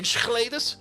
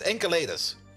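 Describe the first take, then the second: First: The second consonant is a Dutch sch sound. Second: The second consonant is a hard k sound. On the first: "That's the Dutch way to pronounce that" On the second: "it's a hard K"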